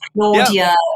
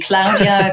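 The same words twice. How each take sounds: First: The name has a British English pronunciation. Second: The name has a Spanish or Italian pronunciation. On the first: The listener is British. "with the British" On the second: The listener speaks Spanish or Italian. "if I'm speaking with Spanish and Italians"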